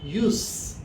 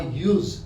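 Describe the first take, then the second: First: The word ends with a hissing S sound. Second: The word ends with a buzzing Z sound. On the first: It is the noun, meaning purpose or usefulness. "then you'll say the S sound, the hissing sound" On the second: It is the verb, meaning to employ something. "when you say the verb, it is pronounced with a Z sound"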